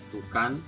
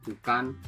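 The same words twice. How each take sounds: The two takes are said the same way.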